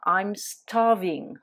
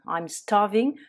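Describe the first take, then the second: First: Slow and careful, each word clear; slow model phrase. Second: Said in the usual way. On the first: Shown as a demonstration. Teacher modelling the phrase slowly for French students. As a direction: spell it out slowly for the learners. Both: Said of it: "pour exagérer, dire".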